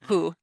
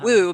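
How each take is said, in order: First: The word begins with an H sound. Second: The word begins with a W sound. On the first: The speaker calls it right. "but who, who. ... who with an H sound" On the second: The speaker calls it wrong. "We don't say"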